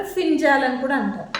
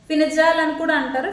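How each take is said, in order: First: ఫింజాల్ squeezed to two syllables, fin-jaal; the easy foreigner's ఫింజాల్, no middle vowel; simplified form. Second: ఫినిజాల్ with the full middle vowel, fi-ni-jaal; native Arabic form. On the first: Teacher giving viewers the simple ఫింజాల్ used for outsiders. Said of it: "అర్థం అవడం కోసం మనకి ఫింజాల్ అంటారు". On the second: Teacher showing viewers the native Arabic ఫినిజాల్, all syllables. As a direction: say ఫినిజాల్ as native speakers do, four clear syllables. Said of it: "వాళ్ళ language వచ్చేస్తే కనుక ఫినిజాల్ అంటారు". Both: Shown as a demonstration.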